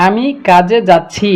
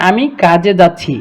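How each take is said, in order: Both takes have the same delivery.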